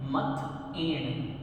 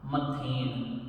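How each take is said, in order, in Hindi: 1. स्वर अलग-अलग ध्वनियों के रूप में रहते हैं। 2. स्वर एक ही अक्षर में मिल जाते हैं। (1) "ये साउंड अलग अलग आने चाहिए" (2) "हम थ के ऊपर एक ही मात्रा लगा देते हैं"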